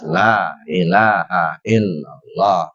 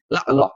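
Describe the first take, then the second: First: The phrase is said fully and clearly. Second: The phrase is clipped with sounds dropped. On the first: The speaker calls it right. "Zikir yang harus jelas" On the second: The speaker calls it wrong. "Ini sudah berkurang hurufnya, nggak benar"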